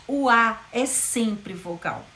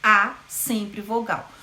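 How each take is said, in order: First: Slow, deliberate O A é sempre vogal; slow teaching emphasis. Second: Even slower A sempre vogal; slow teaching emphasis; slow repetition. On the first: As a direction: spell it out slowly for students. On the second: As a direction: repeat it slowly to drive it home. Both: Shown as a demonstration. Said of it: "sempre semivogais".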